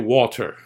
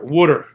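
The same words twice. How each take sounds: First: It is said with a standard t sound. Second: It sounds like wooder, with a d sound. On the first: This is how fancy people say it. "the fancy people, they say water" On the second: This is how locals say it. "we say water. W O O D E R"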